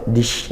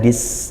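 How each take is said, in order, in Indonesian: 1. Di akhir ada bunyi sh yang mendesau. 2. Di akhir ada bunyi s yang mendesis. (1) "atau sampai dish ya, itu shin" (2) "jangan dis itu sin"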